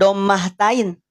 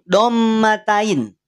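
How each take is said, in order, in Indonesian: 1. Ada bunyi h sebelum akhiran. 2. Tidak ada bunyi h sebelum akhiran. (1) "Awas, bukan dommahtain" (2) "haknya buang"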